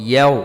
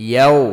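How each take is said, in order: No difference in how they are said.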